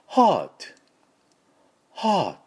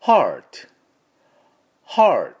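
First: British "heart" with no R, higher pitch; just a sighed "haa" and a t, British style; British pronunciation. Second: American "heart" with a firm R, louder; American pronunciation. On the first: Teacher contrasting how British people say heart, British pronunciation. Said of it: "イギリス人はこのRを無視して". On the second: Teacher contrasting how Americans say heart, American pronunciation. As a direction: curl the tongue for a clear American R. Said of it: "アメリカ人はRをしっかり入れますから". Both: Shown as a demonstration.

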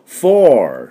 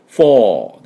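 First: American フォー ending in an R; American "four". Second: British フォー with no R at the end; British "four". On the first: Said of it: "アメリカ音だとフォーって R が入ります". (アメリカ音のフォー、最後にRを入れる) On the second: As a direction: say フォー the British way, long open vowel. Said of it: "イギリス音だとフォーです". (イギリス音のフォー、最後のRなし) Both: Shown as a demonstration.

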